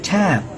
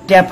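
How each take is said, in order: First: The first consonant has a strong puff of air. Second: The first consonant has no puff of air. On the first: The speaker calls it right. "হবে ট্যাপ" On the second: The speaker calls it wrong. "ট্যাপ হবে না"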